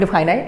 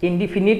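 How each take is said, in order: First: The third syllable sounds like 'fine'. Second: The third syllable sounds like 'fin'. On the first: "সঠিক উচ্চারণ হতে পারে ইনডিফাইনাইট" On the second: "ইনডিফিনিট আমরা উচ্চারণ করি"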